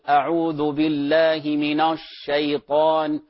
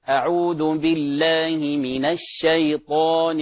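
First: A thin letter is pronounced heavy and full. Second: The thin letter is kept light and thin. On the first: The speaker calls it wrong. "لا نقول" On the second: The speaker calls it right. "الحرف المرقق يرقق"

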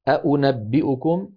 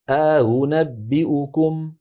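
First: Both glottal stops are fully pronounced. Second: A long vowel precedes the softened second stop. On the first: "الأصل أن تكون كلتا الهمزتين محققة" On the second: "يدخل بين الهمزتين ألفا ليباعد بينهما"

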